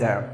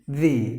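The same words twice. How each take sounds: First: The word ends in a short 'uh' vowel. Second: The word ends in a long 'ee' vowel. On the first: The next word begins with a consonant. "Before consonants, it is" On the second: The next word begins with a vowel. "Before vowels"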